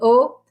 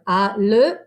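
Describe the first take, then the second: First: The sounds merge into one single vowel o. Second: Two separate syllables are said, a then le. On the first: The speaker calls it right. "It goes together to become o" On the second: The speaker calls it wrong. "no, no, no, no"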